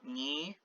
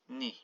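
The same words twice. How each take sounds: First: The I vowel is full and clear. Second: The I vowel is shortened. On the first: The speaker calls it wrong. "so not ni" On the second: The speaker calls it right. "it's ni"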